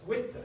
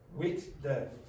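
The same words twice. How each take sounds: First: The words are linked and one sound drops. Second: Both words are said separately with both sounds. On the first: "one of them usually disappears. So you get with the" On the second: "very often Irish people will say with, with, the"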